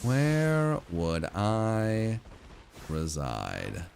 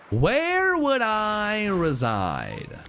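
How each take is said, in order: First: Very slow "Where would I reside", dropping away; slow, fading. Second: High, slow grand "Where would I reside"; high dramatic. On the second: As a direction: lift "Where" high and stretch it. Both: Shown as a demonstration.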